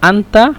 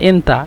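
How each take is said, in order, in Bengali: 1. প্রথম স্বরধ্বনিটি একটি খোলা 'a' ধ্বনি। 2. প্রথম স্বরধ্বনিটি একটি 'e' ধ্বনি। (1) "আনতাকে মিশরে এন্তা বলে" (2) "মিশরে এন্তা বলে"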